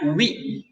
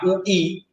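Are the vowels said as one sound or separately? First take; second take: one sound; separately. First: The two vowels merge into one glide sound. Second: The two vowels are sounded separately. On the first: The speaker calls it right. "satu bunyi jadinya wi" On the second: The speaker calls it wrong. "Bukan dibunyikan ui"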